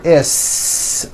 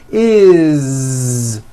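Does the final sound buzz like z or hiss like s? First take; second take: s; z. First: It ends with a hissing, unvoiced s sound. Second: It ends with a buzzing, voiced z sound. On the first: The speaker calls it wrong. "It's never is, unvoiced" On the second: The speaker calls it right. "It's always is with a voiced Z"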